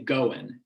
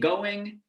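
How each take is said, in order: First: The word ends with an n sound. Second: The word ends with an ng sound. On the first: It sounds casual. "the latter ... goin' form, is more often found in casual settings" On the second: It sounds more formal. "the former, the running, doing, going form, has prestige"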